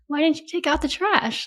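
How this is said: It is said in a playful tone.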